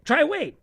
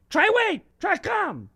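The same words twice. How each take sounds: First: Put-on raised-voice call to a child; yelled call. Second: High-pitched holler from the back porch; louder yell. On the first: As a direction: call out the name, not at full volume. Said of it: "and she yell". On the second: Acted. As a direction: yell the names out for the kids. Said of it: "would yell even more loud".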